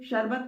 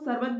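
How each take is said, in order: First: The word begins with a 'sh' sound. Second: The word begins with an 's' sound. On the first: The speaker calls it right. "आप लोग शरबत को" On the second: The speaker calls it wrong. "सरबत भी बोलते हैं"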